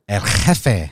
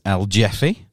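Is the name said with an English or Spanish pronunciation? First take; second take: Spanish; English. First: The name is said with a Spanish pronunciation. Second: The name is said with an anglicized pronunciation. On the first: The speaker knows the proper form. The speaker calls it right. "But this, of course, is El Jefe" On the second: The speaker lacks cultural knowledge. The speaker calls it wrong. "if I was uncultured, I would pronounce this El Jeffy"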